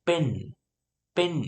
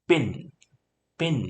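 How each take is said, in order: Both takes have the same delivery.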